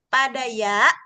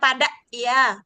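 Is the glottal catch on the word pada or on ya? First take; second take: ya; pada. First: A glottal catch falls on the word ya. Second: A glottal catch falls on the word pada. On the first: The speaker calls it right. "Hamzahnya tuh di huruf ya-nya, bukan di padanya" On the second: The speaker calls it wrong. "Jangan pada ya"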